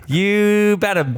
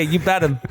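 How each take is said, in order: First: "You bet 'em" drawn out slow and high; "You bet 'em" said slowly, pitched up, gloating; slow, higher you bet 'em. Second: Said in the usual way. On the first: Real, not acted. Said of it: "you bet 'em". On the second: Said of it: "You bet 'em".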